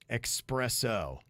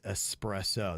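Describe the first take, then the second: First: It is said with an x sound, like expresso. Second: It is said with a plain s, no x sound. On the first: The speaker calls it wrong. "what what did I say?" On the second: The speaker calls it right. "there's no X in espresso"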